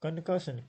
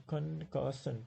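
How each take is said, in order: First: Said in the usual way. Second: "concussion" drawn out in three separate syllables. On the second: Shown as a demonstration. Teacher counting syllables in "concussion" for students, syllable by syllable. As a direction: break "concussion" into its three beats. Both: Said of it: "There are three syllables".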